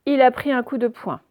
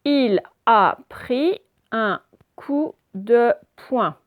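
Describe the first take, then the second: First: Said in the usual way. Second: "Il a pris un coup de poing" very slow, each syllable separate; deliberate teacher's decoding of "Il a pris un coup de poing"; syllable-by-syllable reading. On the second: Shown as a demonstration.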